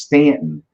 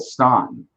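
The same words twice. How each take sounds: First: Stanton with a flat "a", as in "stand"; local pronunciation Stanton. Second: Staunton with an "aw" vowel, as spelled; spelling pronunciation Staunton. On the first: Host explains the town's local name, Stanton with flat "a". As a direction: say Stanton slowly, first vowel like "stand". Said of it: "it's pronounced Stanton". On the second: Host shows how the town is spelled, Staunton with "aw". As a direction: say Staunton slowly, first syllable like "stawn". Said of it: "but it's spelled Staunton". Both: Shown as a demonstration.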